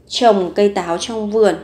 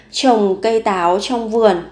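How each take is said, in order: Both takes have the same delivery.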